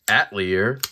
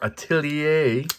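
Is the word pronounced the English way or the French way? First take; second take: English; French. First: The word is pronounced the English way. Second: The word is pronounced the French way.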